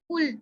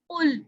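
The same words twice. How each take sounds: First: It begins with a light, ordinary k sound. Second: It begins with a deep, throaty q sound. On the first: It means eat. The speaker calls it wrong. "पतला वाला काफ पढ़ दिया" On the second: It means say. The speaker calls it right. "यहाँ पे मोटा काफ यूज हो रहा है"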